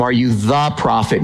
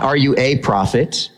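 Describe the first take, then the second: First: "the" in "Are you the prophet?" gets the weight; stress on THE. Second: "a" in "Are you a prophet?" said as the contrast; stress on A. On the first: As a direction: lean on "the" before prophet. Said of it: "notice they ask him". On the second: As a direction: lean on the little word "a". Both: Shown as a demonstration.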